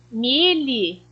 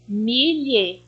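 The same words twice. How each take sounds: First: "milhe" said as mi-lhi, ending in a clear i; trying lhi. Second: "milhe" said with a closed final e, mi-lhe; trying lhe. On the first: ("milhe" pronunciado como milhi, testando a sílaba lhi) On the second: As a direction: test the ending "milhe" as mi-LHE, ending in e. ("milhe" com final em e, testando a sílaba lhe) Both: Shown as a demonstration. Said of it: "Vamos tentar encaixar?".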